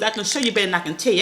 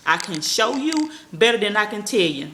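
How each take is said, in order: First: Rattled off fast. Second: Slow and deliberate; slower. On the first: To her viewers, rattling off her motto fast. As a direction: say it quick like you always do. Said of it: "I talk fast". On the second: Repeating her motto slowly so viewers catch it. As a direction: spell it out slowly for them. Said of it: "I had to repeat myself". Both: Shown as a demonstration.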